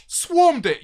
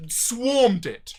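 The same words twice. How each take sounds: First: Swarmed it again higher and louder, punched; insistent, raised emphasis on swarmed; emphatic repeat. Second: Said in the usual way. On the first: Real, not acted. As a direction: hit swarmed hard on the repeat.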